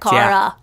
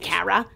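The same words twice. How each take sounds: First: The first syllable sounds like 'car'. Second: The first syllable does not sound like 'car'. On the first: The speaker calls it right. "This is the correct pronunciation. Like a car" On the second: The speaker calls it wrong. "She couldn't pronounce my name to save her life"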